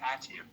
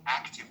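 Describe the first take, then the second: First: The k sound is dropped or weakened. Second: The k sound is pronounced clearly. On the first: The speaker calls it wrong. "they say active" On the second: The speaker calls it right. "instead of active"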